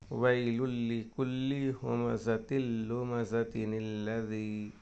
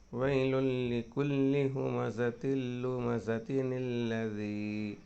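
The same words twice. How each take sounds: No difference in how they are said.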